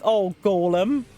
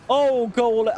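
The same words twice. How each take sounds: First: Slow, stretched-out groan of a plea; drawn-out exasperated plea. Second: Said in the usual way. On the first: Real, not acted. Player groaning at the golem that keeps running into enemies, drawn out. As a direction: drag out the oh like you've given up on him.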